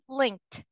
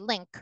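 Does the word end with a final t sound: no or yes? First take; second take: yes; no. First: The word ends with a final t sound. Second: The word ends without a final t sound. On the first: The speaker calls it right. "Could you please say this again for me?" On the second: The speaker calls it wrong. "They say link"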